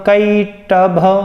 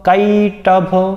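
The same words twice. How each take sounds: Both takes have the same delivery.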